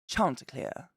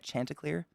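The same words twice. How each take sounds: First: It is said in a put-on British accent. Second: It is said in a plain American accent.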